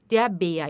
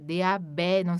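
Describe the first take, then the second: First: The vowel in Bär sounds close to 'ee'. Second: The vowel in Bär sounds close to 'eh'. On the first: The speaker calls it right. "A tremado tem um som de I" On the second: The speaker calls it wrong. "Em alguns casos, som de E"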